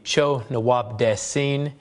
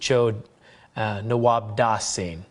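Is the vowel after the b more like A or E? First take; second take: E; A. First: The vowel after the b sounds like E. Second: The vowel after the b sounds like A.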